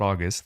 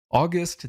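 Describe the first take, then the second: First: The stress is on the first syllable. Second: The stress is on the second syllable. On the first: It names the month. The speaker calls it wrong. "not August, that's the month" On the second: It describes someone noble or highly respected. The speaker calls it right. "this is actually August"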